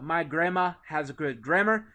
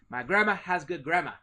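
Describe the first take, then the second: First: It is said in a plain, non-Boston accent. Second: It is said in a Boston accent.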